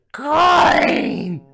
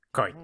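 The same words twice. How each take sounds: First: Very high, long-held scream; crazed piercing yell. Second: Said in the usual way. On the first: Acted. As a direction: shriek it, stretching the vowel. Escalating shouting exchange with coin.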